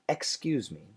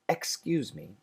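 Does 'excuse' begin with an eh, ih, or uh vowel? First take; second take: eh; eh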